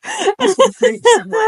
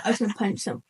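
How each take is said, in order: First: High, squeaky words through real laughter; helpless laughing. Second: Said in the usual way. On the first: Real, not acted. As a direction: crack up while saying it. Retelling anger while cracking up.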